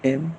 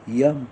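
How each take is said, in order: First: It starts directly with a plain e vowel. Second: It starts with a y glide before the vowel. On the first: The speaker calls it right. "असे स्पष्ट उच्चार आले पाहिजेत" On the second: The speaker calls it wrong. "असे करायचे नाहीत"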